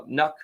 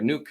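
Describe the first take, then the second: First: Nuke with a short u, rhyming with luck; short-vowel Nuke, as in duck; Nuke said as "nuck". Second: Nuke with a long oo, rhyming with fluke; long-vowel Nuke, as in spook; Nuke said as "nook". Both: Shown as a demonstration. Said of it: "is it Nuke or Nuke".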